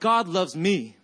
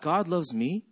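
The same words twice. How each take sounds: First: The pitch falls at the end. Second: The pitch rises at the end. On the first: The speaker states it with confidence. "it didn't come out like God loves me" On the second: The speaker doubts that it is true. "It came out like God loves me"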